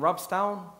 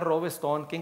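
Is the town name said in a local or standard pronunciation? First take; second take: standard; local. First: The name is said in a standard pronunciation. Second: The name is said in the local pronunciation.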